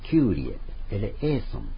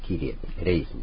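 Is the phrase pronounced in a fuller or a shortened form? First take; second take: fuller; shortened. First: The phrase is said in a fuller, longer form. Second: The phrase is said in a shortened, contracted form. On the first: This is the original Greek form. "本当はキュウリエ、エレエーソン" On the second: This is the form used in sung masses. "キリエっていう発音になって短縮されて"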